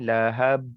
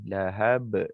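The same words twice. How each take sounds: First: The final b is held silent without release. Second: The final b is released with an audible bounce. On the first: The speaker calls it wrong. "Ha senyap dia tak bunyi" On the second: The speaker calls it right. "Kena bunyikan ba tu"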